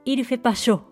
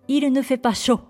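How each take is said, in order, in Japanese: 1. 否定の'ne'は省略されます。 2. 否定の'ne'は発音されます。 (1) "日常会話では否定のne が省略されるので、実際は" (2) "Il ne fait pas chaud。となります。"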